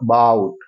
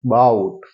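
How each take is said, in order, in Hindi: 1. पहला स्वर एक बहुत छोटा schwa है। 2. पहला स्वर एक बहुत छोटा schwa है।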